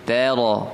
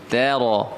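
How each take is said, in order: The two takes are said the same way.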